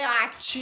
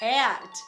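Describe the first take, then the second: First: The final t is a strong, sneeze-like burst. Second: The final t is very light and subtle. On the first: The speaker calls it wrong. "não é at. Não, ninguém tá espirrando" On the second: The speaker calls it right. "ele existe, mas ele é bastante sutil"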